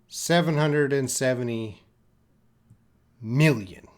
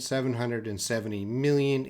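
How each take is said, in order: First: It is said slowly, piece by piece. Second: It is said really fast.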